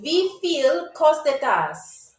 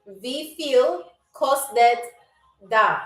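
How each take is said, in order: First: The phrase is spoken quickly. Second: The phrase is spoken slowly. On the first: "I'm trying to say it quickly" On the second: "I'll also say it slow"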